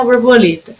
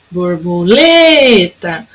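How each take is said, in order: First: Said in the usual way. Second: "borboleta" with LE drawn out very long; calling the word. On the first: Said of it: "se eu precisar chamar uma borboleta". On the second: Shown as a demonstration. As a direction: call out "borboleta" slowly, stretching the stressed LE. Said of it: "o lê foi o que durou mais".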